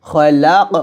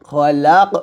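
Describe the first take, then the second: Both takes have the same delivery.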